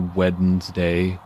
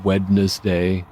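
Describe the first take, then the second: First: Every letter of the word is pronounced. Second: Every letter of the word is pronounced.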